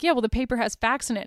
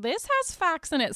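First: Said in the usual way. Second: Higher-pitched attempt at a Scottish mom; light mock Scottish accent on a retort. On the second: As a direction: imitate a Scottish mother, pitched up. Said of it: "Sorry, I won't do a Scottish accent".

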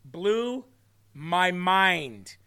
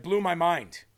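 First: "Blew" and "mind" drawn out, with a pause between; slow, amazed emphasis on "Blew ... my mind"; emphatic repeat. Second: Said in the usual way. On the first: Real, not acted. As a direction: stretch each word of "Blew my mind" for effect. Repeats phrase for dramatic emphasis.

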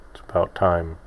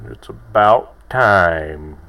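First: Said in the usual way. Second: ABOUT TIME drawn out slow and louder; punning emphasis. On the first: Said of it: "It's the title of the episode". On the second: Shown as a demonstration. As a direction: stretch "about time" like an exasperated "finally". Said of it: "It's a double entendre".

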